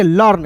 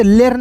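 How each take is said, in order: First: लर्न with a short uh vowel; correct pronunciation. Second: लेर्न with an E vowel; wrong pronunciation. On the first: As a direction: say लर्न as "luhrn", e and a silent. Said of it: "इसे पढ़ेंगे लर्न". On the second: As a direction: say learn as "lern", लेर्न with an ay-like e. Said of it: "लेर्न नहीं पढ़ेंगे". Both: Shown as a demonstration.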